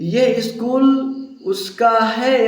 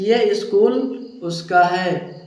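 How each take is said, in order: First: The sentence is said with extra force. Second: The sentence is said plainly, without extra force. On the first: It insists that the school is hers. "Force देकर" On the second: It simply states whose school it is. "ऐसे कह सकते हो आप"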